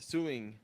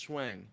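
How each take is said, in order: First: The name is said like 'Suing'. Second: The name is said like 'Schwang'. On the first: The speaker calls it right. "probably suing" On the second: The speaker calls it wrong. "not Schwang"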